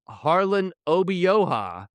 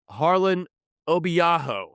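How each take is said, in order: First: The name ends with the sounds oha. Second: The name ends with the sounds aho. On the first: The speaker calls it right. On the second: The speaker calls it wrong.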